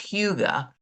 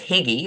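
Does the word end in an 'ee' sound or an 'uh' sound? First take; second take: uh; ee. First: The word ends in an 'uh' sound. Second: The word ends in an 'ee' sound. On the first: The speaker calls it right. "we quickly learned in country that it is Huga" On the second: The speaker calls it wrong. "I thought it was Higgy or something"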